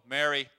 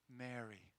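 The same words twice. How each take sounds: First: The name is said harshly and abruptly. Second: The name is said tenderly and gently.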